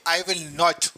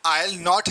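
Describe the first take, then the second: First: Every word is said fully and separately. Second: 'I will' is merged into one syllable.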